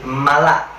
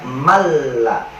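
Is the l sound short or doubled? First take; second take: short; doubled. First: The n is dropped and the l is short. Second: The n is dropped and the l is doubled. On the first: The speaker calls it wrong. "cuma nggak pakai tasjid" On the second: The speaker calls it right. "Tapi kalau ada tasjidnya"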